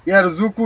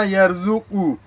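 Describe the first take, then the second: First: ইয়ারযুকু said plainly, without the heavy back k sound; the mistaken ইয়ারযুকু with an ordinary k; wrong pronunciation. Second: ইয়ারযুকু with the k pulled back into the throat; correct pronunciation. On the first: Teacher showing the wrong way to say ইয়ারযুকু. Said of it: "উচ্চারণ হবে না". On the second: Teacher modelling the correct ইয়ারযুকু for viewers. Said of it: "এইভাবে". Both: Shown as a demonstration.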